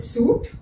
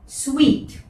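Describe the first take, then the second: First: The word sounds like suit. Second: The word sounds like sweet. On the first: The speaker calls it wrong. "is it suit? No" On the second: The speaker calls it right. "ये है sweet. Sweet, खाने का sweet, the same pronunciation"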